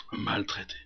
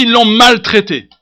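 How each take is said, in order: First: Very soft, low, nearly whispered; hushed echo. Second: Loud, high pulpit cry; emphatic declaration. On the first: Preacher echoing the mistreatment to the congregation, hushed. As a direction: let the word fall away almost voiceless. Same word dropped to near whisper. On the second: Preacher denouncing the doctors' mistreatment, emphatic. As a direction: proclaim it with force. Loud take, then hushed repeat. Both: Acted.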